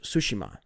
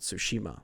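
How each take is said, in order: First: The name is said without an American pronunciation. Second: The name is said with an American pronunciation. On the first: The speaker calls it right. "which is how I learned is Tsushima" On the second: The speaker calls it wrong. "That's like the very Americanized way to say it"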